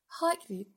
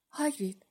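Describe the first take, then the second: First: Sweet-talking call, pitched higher; flattering coax. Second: Said in the usual way. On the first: A narrator's reading. Girl coaxing her big friend, in a flattering sweet-talk. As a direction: coax him with a honeyed name. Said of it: "با حالت چاپلوسانه و چرب زبانی". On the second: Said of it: "هری با نگرانی گفت".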